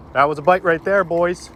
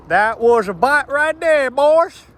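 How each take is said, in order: First: Said in the usual way. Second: The same line again, high and loud, in a Southern twang; Southern drawl. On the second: Real, not acted. Southern drawl as he cheers a fish bite. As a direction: repeat it as a Southern angler. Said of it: "I just turned southern all of a sudden".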